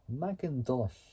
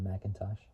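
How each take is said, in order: First: It is said in a Scottish accent. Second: It is said in the speaker's normal accent.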